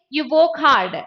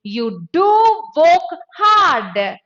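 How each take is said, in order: First: Said in the usual way. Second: Slow and loud, DO stretched out; stress on DO. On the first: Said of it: "You can simply say". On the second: Shown as a demonstration. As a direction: hammer DO with slow, raised emphasis. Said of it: "I wanted to give more emphasis".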